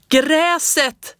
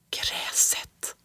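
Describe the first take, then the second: First: High, loud excited yell; shouted. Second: Breathless secret whisper. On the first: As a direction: burst out with it on sudden realization. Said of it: "skrek jag". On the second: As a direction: whisper it to yourself in awe. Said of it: "viskade jag". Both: A narrator's reading.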